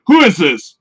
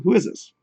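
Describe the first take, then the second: First: Mock-offended question, louder; hostile. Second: Mild, softer, easygoing question; calm. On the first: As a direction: read it as a confrontational challenge. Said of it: "meanwhile, I'm thinking". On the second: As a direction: ask it gently and innocently. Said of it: "you could be writing that comment so calm". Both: Shown as a demonstration.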